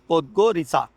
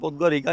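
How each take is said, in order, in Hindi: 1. अंतिम व्यंजन ts जैसा सुनाई देता है। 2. अंतिम व्यंजन k जैसा सुनाई देता है। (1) "ऐसे ही बोल रहे थे" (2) "प्रोनाउंसिएशन पोदगोरिका नहीं है"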